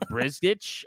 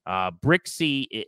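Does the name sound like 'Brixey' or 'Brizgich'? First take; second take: Brizgich; Brixey. First: The name sounds like 'Brizgich', with a z sound. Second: The name sounds like 'Brixey', with a ks sound. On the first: The speaker calls it wrong. "I don't even know how you would pronounce that based on what it looks like" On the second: The speaker calls it right. "that's how you say his name"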